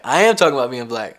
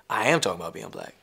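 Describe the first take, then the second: First: Louder defiant insistence, leaning on "am". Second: Said in the usual way. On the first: Shown as a demonstration. Repeated with rising force.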